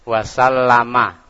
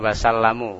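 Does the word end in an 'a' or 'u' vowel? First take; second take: a; u. First: The word ends with an 'a' vowel. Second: The word ends with a 'u' vowel. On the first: The speaker calls it right. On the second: The speaker calls it wrong.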